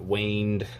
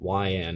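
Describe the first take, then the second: First: The name begins with a 'way' sound. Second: The name begins with a 'why' sound. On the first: The speaker calls it wrong. "not waned" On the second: The speaker calls it right. "Say Y-and"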